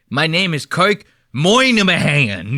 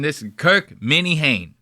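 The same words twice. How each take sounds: First: Slow, hammed-up Boston accent; mock Boston accent. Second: "Minihane" as plain MINNIE-HANE; pronounced as spelled. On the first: Host mocking how Kirk says his name, overdone Boston accent. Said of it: "Don't give me that Boston Moynihan shit". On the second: Shown as a demonstration. Host correcting the Boston boys, "Minihane" said as MINNIE-HANE. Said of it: "say it like it's spelled".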